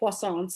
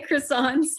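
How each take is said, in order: First: It is said with a French pronunciation. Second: It is said with an American pronunciation. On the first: "we do not say croissants like the French" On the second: "but we say croissants"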